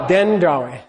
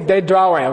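First: The d is said with an n before it. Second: The d is said without an n before it. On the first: It means the intended word. The speaker calls it right. "You're going to say what? Den drawe" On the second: It means being caught in a trap. The speaker calls it wrong. "Don't say de drawe"

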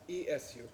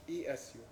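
The two takes are said the same way.

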